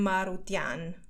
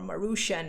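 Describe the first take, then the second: First: The ending is said with a 't' sound. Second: The ending is said with an 'sh' sound. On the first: This is the speaker's own way of saying the name. "So I'm Marutian" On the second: This is how Americans would say the name. "as the Americans would like to pronounce it"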